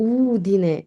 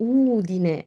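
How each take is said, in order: Both takes have the same delivery.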